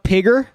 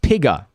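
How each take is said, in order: First: The word ends with a hard R sound. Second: The word ends with a soft A sound. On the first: It sounds too aggressive. The speaker calls it wrong. "That's a little bit too aggressive" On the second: It sounds less aggressive. The speaker calls it right. "Piga is, is a soft R"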